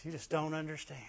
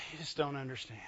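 First: Mock pitiful. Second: Heavy sigh, then soft, low self-pity; mock pitiful. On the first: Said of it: "I just hate that sentence". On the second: Shown as a demonstration. Preacher showing how to get people to feel sorry, mock pitiful. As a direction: sigh and murmur it like a martyr. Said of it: "You gotta say it like this".

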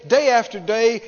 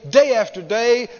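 The two takes are said the same way.

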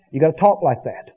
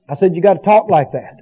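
First: Said in the usual way. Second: Repeated with firmer weight on talk; emphatic repeat. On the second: Shown as a demonstration. Preacher repeating the point to his congregation, emphatic. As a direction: drive the point home the second time.

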